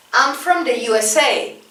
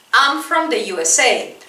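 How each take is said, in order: Both takes have the same delivery.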